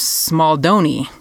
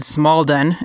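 First: The name ends with a final vowel sound. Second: The name ends without a final vowel. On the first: The speaker calls it right. "The Italian version is Smaldoni" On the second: The speaker calls it wrong. "I said Smaldon in the last episode, and apparently that's not right"

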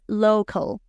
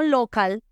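First: The first vowel glides like the letter name O. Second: The first vowel is a short, plain o. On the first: The speaker calls it right. "Se va a pronunciar con el nombre de la O" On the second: The speaker calls it wrong. "No local"

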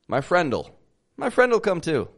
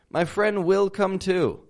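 First: The word will is contracted onto friend. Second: The word will is said in full. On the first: The speaker calls it right. "You drop the W from will and you contract it" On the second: The speaker calls it wrong. "It sounds a little desperate"

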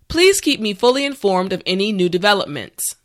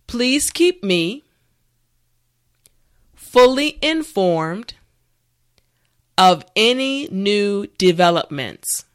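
First: The sentence is spoken at natural speed. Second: The sentence is spoken slowly. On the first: "this time we will go at a more natural pace" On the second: "this time repeat after me"

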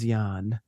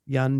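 First: The vowel in the name is stretched longer. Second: The vowel in the name is short.

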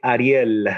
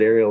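First: The name is said with a Spanish pronunciation. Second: The name is said with an American pronunciation. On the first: This is the family's own way of saying the name. "My parents call me Ariel" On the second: This is how most people say the name. "I know a lot of people pronounce it Ariel"

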